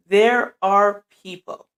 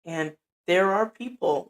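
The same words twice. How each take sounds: First: Louder, slower, every word of there are people hit; repeated for the back. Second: Said in the usual way. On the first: Shown as a demonstration. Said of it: "for the people in the back". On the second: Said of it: "I'm gonna say it again, for the people in the back".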